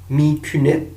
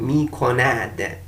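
First: The second vowel is a 'ü' sound. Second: The second vowel is an 'o' sound. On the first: The speaker calls it wrong. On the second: The speaker calls it right.

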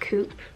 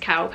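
First: The vowel sounds like 'oo'. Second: The vowel sounds like 'ow'. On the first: The speaker calls it right. "I think that's how you pronounce it" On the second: The speaker calls it wrong. "I don't think it's cowp"

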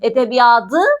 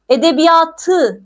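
First: The consonant before the ending is d. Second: The consonant before the ending is t. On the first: The speaker calls it wrong. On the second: The speaker calls it right.

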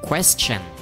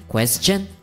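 First: The stress is on the first syllable. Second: The stress is on the second syllable. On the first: "nói nhấn nó lên một xíu ở cái âm đầu" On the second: "người ta nói nhấn lên ở cái âm sau chứ không phải là âm đầu"

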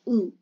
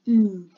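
First: The vowel is short and not drawn out. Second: The vowel is stretched and drawn out. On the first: The speaker calls it wrong. "Like not oo" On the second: The speaker calls it right. "Just stretch the U when you're sounding it"

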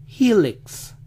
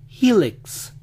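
Both takes have the same delivery.

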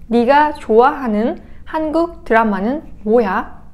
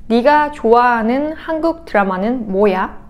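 Both takes have the same delivery.

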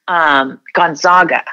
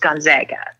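First: The middle syllable has an 'ah' vowel like Zog. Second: The middle syllable has the short 'a' of Zag. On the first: The speaker is from the eastern United States. The speaker calls it wrong. "you can always tell when you're on the eastern side of the United States, because they call us Gonzaga" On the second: The speaker knows the school's own pronunciation. The speaker calls it right. "we're called the Zags. We're not called the Zogs. We're called the Zags. So it's Gonzaga"

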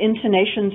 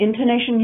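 The two takes are said the same way.

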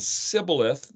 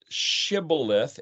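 First: The word begins with an s sound. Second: The word begins with a sh sound. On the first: Another group of people said it this way. "the way other people spoke it" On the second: One group of people said it this way. "S-H, the way some people spoke it"

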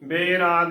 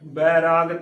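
First: The first vowel is the 'e' sound. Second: The first vowel is the 'ai' sound. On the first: The speaker calls it wrong. "ਬੇਰਾਗ ਨਹੀਂ ਬੋਲਣਾ, ਉਹ ਗਲਤ ਉਚਾਰਨ ਹੋਵੇਗਾ" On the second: The speaker calls it right. "ਬੱਬੇ ਨੂੰ ਦਲਾਵਾਂ ਲੱਗੀ ਹੈ"

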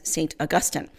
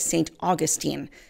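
First: It is said the way the saint's name is said. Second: It is said the way the city's name is said. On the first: It names the saint. "Catholics, of course, pronounce the name of the saint as" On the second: It names the city in Florida. "they actually pronounce the name of the city as"

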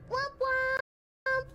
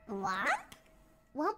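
First: It sounds happy. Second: It sounds confused.

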